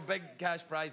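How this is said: It is said in an American accent.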